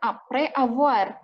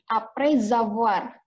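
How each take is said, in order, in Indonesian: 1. Kedua kata itu terpisah, tidak ada bunyi z di antaranya. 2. Kedua kata itu disambung dengan bunyi z. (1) "bukan après avoir" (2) "tetap kita nyambung bacanya"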